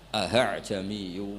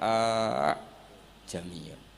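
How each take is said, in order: First: The second glottal stop is softened, eased. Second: The two glottal stops merge into one. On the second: "kita baca idgham"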